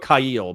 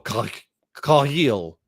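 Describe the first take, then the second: First: It begins with a plain English k sound. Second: It begins with a throaty sound like in loch. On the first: "that sounds more normal out of English" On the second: "the the K H is like lock"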